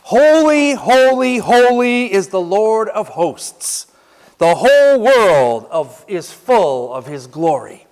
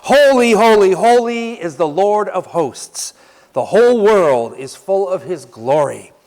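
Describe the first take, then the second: First: High, loud, slow proclamation; preacher booming out the angels' praise; proclaiming seraphs' words. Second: Preacher repeating the seraphs' cry; proclaiming again. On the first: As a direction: ring out each holy like a hymn. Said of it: "Here's what they said". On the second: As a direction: lead the congregation in praise. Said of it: "I'm gonna say it one more time". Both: Shown as a demonstration.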